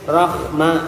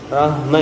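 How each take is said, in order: First: The h has a raspy, scraping throat sound. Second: The h vibrates heavily from the chest. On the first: "ada serak-seraknya dikit ... itu udah jadi kho" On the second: "ada getaran di dada ... udah masuk H besar"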